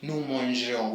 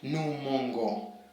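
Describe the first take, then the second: First: The g is soft, like in 'beige'. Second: The g is hard, like in 'go'. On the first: The speaker calls it right. "which is right" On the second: The speaker calls it wrong. "if you don't put that e after g, you'll change the pronunciation"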